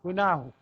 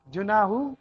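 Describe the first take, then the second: First: گناہ with a hard g at the start; گناہ with a hard g, not j; Egyptian g sound. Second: جناح with a j at the start; جناح with a j, not a hard g; standard j sound. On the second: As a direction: read جناح with a j. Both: Shown as a demonstration. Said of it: "گاف پڑھ کے".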